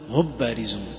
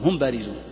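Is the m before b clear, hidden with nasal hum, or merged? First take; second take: merged; clear. First: The m is merged fully into the following b. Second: The m is clear, without a lengthened nasal hum. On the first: "وإذا أدغمتها قلت" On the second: "ما يصلح تسميه إظهار لأنك لن تظهر الغنة فيها، تقول"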